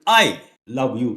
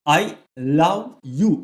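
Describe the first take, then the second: First: The stress is on the word I. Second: The stress is on the word love.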